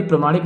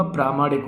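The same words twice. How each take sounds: First: प्रमाणिक opening on short "pra"; short-vowel mistake. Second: प्रामाणिक opening on long "praa", softer; correct long vowel. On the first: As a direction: keep the first a short in प्रमाणिक. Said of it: "नहीं होगा". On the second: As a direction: lengthen the first a of प्रामाणिक. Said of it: "प्रामाणिक होगा". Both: Shown as a demonstration.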